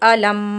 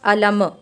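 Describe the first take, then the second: First: The final m ends cleanly without a bounce. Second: The final m ends with an echoing bounce. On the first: The speaker calls it right. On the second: The speaker calls it wrong.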